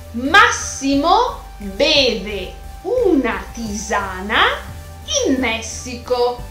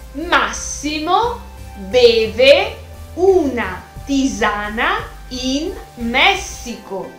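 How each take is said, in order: The two takes are said the same way.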